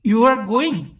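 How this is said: The voice rises at the end. It asks the listener a question. "আপনার rising tone বলে দেবে যে আপনি শ্রোতাকে প্রশ্ন করছেন"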